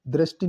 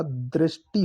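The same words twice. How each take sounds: First: दृष्टि said quickly as "drashti"; wrong pronunciation. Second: दृष्टि said "dreshti", second syllable pressed; correct pronunciation. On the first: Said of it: "दृष्टि नहीं होता". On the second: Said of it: "द के नीचे री की मात्रा". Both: Shown as a demonstration.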